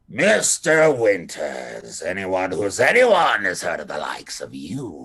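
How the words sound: It is said in a harsh accent.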